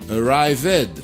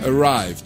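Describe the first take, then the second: First: The -ed ending is sounded as a separate syllable. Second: The -ed ending merges without an extra syllable. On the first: The speaker calls it wrong. "vous essayez la première version" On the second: The speaker calls it right. "on élimine le premier ... Il faut le garder sourd"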